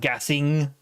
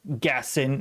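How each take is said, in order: First: The word ends with an ng sound. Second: The word ends with a plain n sound. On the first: The speaker calls it wrong. "not gassing" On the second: The speaker calls it right. "There's no G in Gassin"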